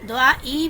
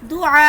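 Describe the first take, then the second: First: It ends with an extra ee vowel added. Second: It ends with a sharp glottal catch. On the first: The speaker calls it wrong. "दुआ ई भी नहीं पढ़ूंगी" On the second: The speaker calls it right. "मैं ऐसे वक्फ करूंगी कि हमजा की साउंड आए"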